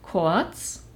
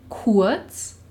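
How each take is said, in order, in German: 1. Der Vokal klingt wie ein o. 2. Der Vokal klingt wie ein u. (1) "Ebenso rede ich von" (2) "Was eigentlich"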